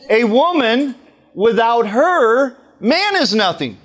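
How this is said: There is a pause after 'her'.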